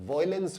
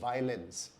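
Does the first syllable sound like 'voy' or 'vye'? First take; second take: voy; vye. First: The first syllable sounds like 'voy'. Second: The first syllable sounds like 'vye'. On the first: The speaker calls it wrong. "इसका उच्चारण सही नहीं है" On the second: The speaker calls it right. "इसको हम बोलते हैं"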